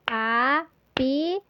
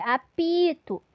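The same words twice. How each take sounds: First: "Apito" very slow, a-pi-to in beats; syllables clapped. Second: Said in the usual way. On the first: Shown as a demonstration. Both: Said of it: "aquele recurso das palminhas".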